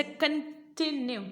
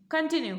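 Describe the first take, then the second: First: कंटिन्यू slowly as CON... TI... NUE; small break after each part of कंटिन्यू; split into syllables. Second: Said in the usual way. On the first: Shown as a demonstration. Teacher showing small breaks in कंटिन्यू, syllable by syllable. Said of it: "फिर टी के बाद में आपका एक छोटा सा break है". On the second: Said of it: "भले कंटिन्यू रहे हो".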